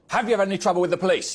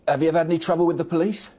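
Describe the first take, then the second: First: It is asked in an aggressive tone. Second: It is asked in a neutral tone.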